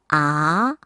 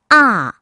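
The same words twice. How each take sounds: First: The syllable is said with the second tone. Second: The syllable is said with the fourth tone. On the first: "이 성" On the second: "사 성"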